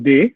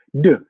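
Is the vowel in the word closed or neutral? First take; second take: closed; neutral. First: The vowel is a closed, tense 'ay' sound. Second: The vowel is a short, neutral, relaxed sound. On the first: The speaker calls it wrong. "Jangan D, karena kalau D harus ada aksennya" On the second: The speaker calls it right. "seperti biasa aja"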